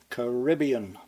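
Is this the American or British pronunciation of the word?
American. It is said with the American pronunciation. "give this word the American pronunciation"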